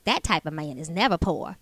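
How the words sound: It is said in an imitation of Whitley's voice.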